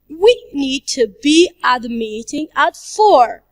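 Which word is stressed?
we. The word 'we' is stressed. "if we stress the word we"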